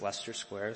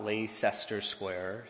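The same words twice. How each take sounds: First: The name has two syllables, with 'ice' dropped. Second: The name has three syllables, with 'ice' sounded. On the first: The speaker calls it right. "so that's I-C-E, delete that" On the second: The speaker calls it wrong. "It's not Leicester Square"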